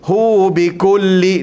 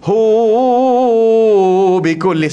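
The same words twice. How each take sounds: First: The vowel of 'hu' is held for two beats. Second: The vowel of 'hu' is stretched out long. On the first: The speaker calls it right. "dua harakat" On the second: The speaker calls it wrong. "panjang hu bikulli, salah"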